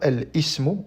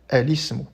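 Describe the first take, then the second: First: A glottal catch separates al from ismu. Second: Al runs smoothly into ismu without a catch. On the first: The speaker calls it wrong. "On ne dit pas" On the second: The speaker calls it right. "cette coupure du hamza va disparaître"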